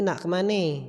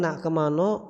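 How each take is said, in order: First: It is said in a Sekayu accent, ending in 'e'. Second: It is said in a Palembang accent, ending in 'o'. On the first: A person from another region says it. "wong Sekayu" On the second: A person from one region says it. "wong Palembang"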